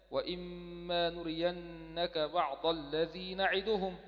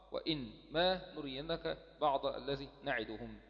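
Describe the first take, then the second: First: "وإما" recited slowly as one word with doubled mim; as pronounced. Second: "وإن ما" read apart as two words, as spelled; as written. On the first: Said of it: "تقرأ هكذا". ("وإما" موصولة بميم مشددة في تلاوة بطيئة) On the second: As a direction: split "وإن" and "ما" the way the script writes them. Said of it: "لكن في الرسم". ("وإن ما" مفصولة كما في الرسم) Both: Shown as a demonstration.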